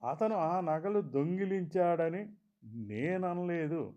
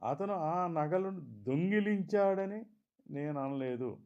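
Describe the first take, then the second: First: The stress falls on the word నేను. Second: The stress falls on the word దొంగిలించాడని. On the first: Someone else may have said it. "వేరెవరైనా అని ఉండవచ్చు అన్నట్లు" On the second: He took them for another reason. "సరదాకో చూసి ఇవ్వడానికో మరెందుకో తీసుకున్నాడన్నట్లు"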